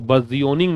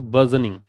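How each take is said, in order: First: The middle is drawn out as 'jee-oh'. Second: The middle is a short, clipped 'juh'. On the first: The speaker calls it wrong. "इसको बर्जियोनिंग नहीं बोलते" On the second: The speaker calls it right.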